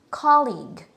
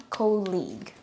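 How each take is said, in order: First: Colleague as KAH-leeg, open first vowel; correct pronunciation. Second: Colleague as KOH-leeg, long O; wrong pronunciation. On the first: Teacher recapping the right word, careful pronunciation. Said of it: "So this one is". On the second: Teacher recapping what not to say, mispronunciation. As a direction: say colleague with an O as in coal. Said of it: "not colleague". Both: Shown as a demonstration.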